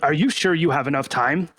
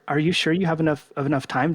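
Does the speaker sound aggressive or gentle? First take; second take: aggressive; gentle. First: The voice is loud and confrontational, almost yelling. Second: The voice is lower and softer, with hesitant stuttering. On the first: The asker seems hostile and threatening. The speaker calls it wrong. "I sound like kind of a jerk, like, wow, this guy's yelling at me" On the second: The asker seems non-threatening, so others answer. The speaker calls it right. "I drop my tone. I have a little bit of stutter going on"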